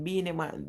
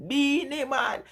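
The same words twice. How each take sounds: First: Said in the usual way. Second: Name lifted up high with delight; excited repeat. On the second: Real, not acted. Telling chat her favourite artist, excited and high. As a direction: call the name out again, higher and thrilled.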